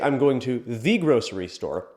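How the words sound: The word "the" is stressed.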